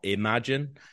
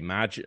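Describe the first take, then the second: First: The word is said in a standard pronunciation. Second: The word is said in a local, reduced pronunciation. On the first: This is not how people at home say it. "not imagine" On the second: This is how people at home say it. "I say imagine"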